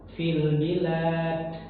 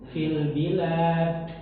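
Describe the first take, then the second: First: The final d is released with a puff of air. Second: The same.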